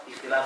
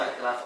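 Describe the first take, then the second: The two takes are said the same way.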